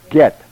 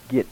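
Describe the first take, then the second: First: The vowel sounds like 'eh'. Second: The vowel sounds like 'ih'. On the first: The speaker calls it right. "That's get" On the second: The speaker calls it wrong. "It's not git"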